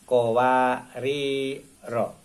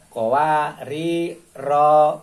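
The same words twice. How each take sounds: First: The final ro vowel is kept short. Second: The final ro vowel is drawn out long. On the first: The speaker calls it right. "Jadi ro-nya dibaca pendek" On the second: The speaker calls it wrong. "Kalau tidak tahu seperti itu"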